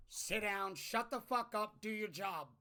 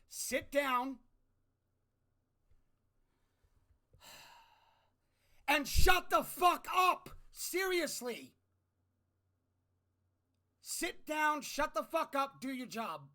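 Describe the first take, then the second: First: Said in the usual way. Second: Shouting much higher and louder; full-throated furious yell. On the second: Real, not acted. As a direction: bellow it at Congress. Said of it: "it's about to get a little loud".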